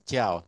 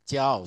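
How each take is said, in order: The two takes are said the same way.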